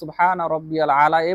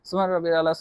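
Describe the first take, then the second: First: The phrase is said slowly and calmly. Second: The phrase is rattled off very quickly. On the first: The prayer is said with inner calm. The speaker calls it right. "ধীরে ধীরে বলতে হবে" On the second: The prayer is rushed without calm. The speaker calls it wrong. "এত তাড়াতাড়ি, এটা কিন্তু সঠিক হয় না।"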